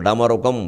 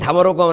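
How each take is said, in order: First: The first consonant is said without aspiration. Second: The first consonant is said with aspiration. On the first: The speaker calls it right. "దానికి ఒత్తు ఉండదు" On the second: The speaker calls it wrong. "అనే మాట తప్పు, ఒత్తు పెట్టకూడదు"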